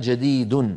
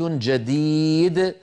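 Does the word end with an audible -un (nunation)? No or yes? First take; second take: yes; no. First: The word ends with an audible -un nunation. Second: The word ends without any nunation sound. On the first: The speaker calls it wrong. "ولا يقولون" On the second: The speaker calls it right. "إذا وقفوا يقولون"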